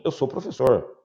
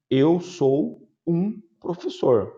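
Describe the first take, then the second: First: Said in the usual way. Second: Slow, stressed wrong "Eu sou um professor"; wrong version. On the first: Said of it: "Eu só digo assim". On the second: Shown as a demonstration. Teacher to class, showing the wrong phrasing slowly. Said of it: "eu não respondo assim".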